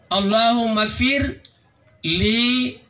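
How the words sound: There is a pause after 'ghfir' before 'li'. It asks forgiveness for the named deceased. The speaker calls it right. "Allahumma gfir, koma. Baru sambung"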